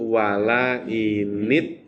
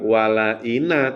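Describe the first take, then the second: First: The n sound is followed by an i vowel. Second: The n sound is followed by an a vowel. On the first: The speaker calls it right. "tapi wala init tabakta" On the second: The speaker calls it wrong. "bukan wala ina"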